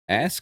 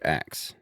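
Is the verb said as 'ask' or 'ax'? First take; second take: ask; ax. First: The word ends with an s then k. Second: The word ends with a k then s. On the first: "Ask or ax?" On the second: "Ask or ax?"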